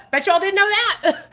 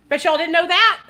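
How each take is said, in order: First: High, loud giggling gloat; laughing tease. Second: High, louder gloating tease; teasing. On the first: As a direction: laugh through the boast. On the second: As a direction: gloat playfully to viewers. Teasing reveal to viewers. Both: Real, not acted.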